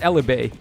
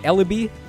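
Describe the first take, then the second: First: The name ends with an 'ay' sound. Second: The name ends with an 'ee' sound. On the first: The speaker calls it right. "I'm pretty sure it's Elibay" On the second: The speaker calls it wrong. "That doesn't sound correct"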